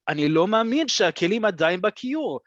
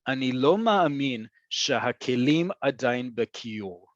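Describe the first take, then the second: First: It is said at natural speed with lively emotion. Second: It is read slowly and evenly, without much emotion. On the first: The speaker calls it right. "how I would say this out loud ... a little bit more pepper" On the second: The speaker calls it wrong. "I'm going to read it slowly"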